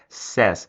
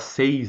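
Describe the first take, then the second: First: The word sounds like 'sez'. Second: The word sounds like 'seis'. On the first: The speaker calls it right. "A forma correta de pronunciar é says" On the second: The speaker calls it wrong. "A palavra says não existe em inglês"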